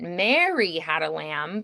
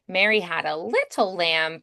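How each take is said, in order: First: The stress is on Mary. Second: The stress is on little.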